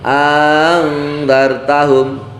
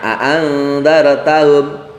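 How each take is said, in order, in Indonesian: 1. Vokal pembuka dipanjangkan dengan satu hamzah. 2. Kedua hamzah di awal dibaca. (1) "hamzah yang ke pertama itu dipanjangkan" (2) "dua hamzah itu dibaca dua-duanya seperti biasanya"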